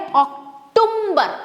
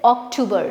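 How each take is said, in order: First: An m sound is slipped into the word. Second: The word is said with no m sound. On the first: The speaker calls it wrong. "जो कि wrong है भाई... एम तो है ही नहीं" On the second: The speaker calls it right. "The right right pronunciation of this word"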